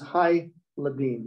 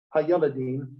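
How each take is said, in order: First: "hai ladim" with ha gliding into i and the ye dropped; correct form. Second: "ha yeladim" with separate ha and full ye syllable; wrong form. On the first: Teacher gives students the correct Hebrew form, clear demo. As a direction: say "hai ladim", hai-LA-dim, no ye syllable. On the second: Teacher shows students the wrong Hebrew form, careful demo. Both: Shown as a demonstration. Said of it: "instead of ha yeladim, it's just hai ladim".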